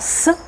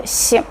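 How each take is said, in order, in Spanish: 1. La consonante es dura, no palatalizada. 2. La consonante es suave y palatalizada. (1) "No sería s" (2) "sino s"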